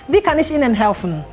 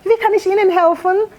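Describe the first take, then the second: First: It is said with a cold, hostile attitude. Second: It is said with a joyful, warm tone.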